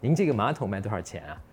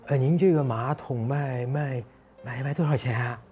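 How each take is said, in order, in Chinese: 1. 这个问句语气平稳，很有把握。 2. 这个问句语气不确定，有点犹豫。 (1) "用一个正常的或者是相对确定的一个语气" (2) "这就是一个不确定的语气"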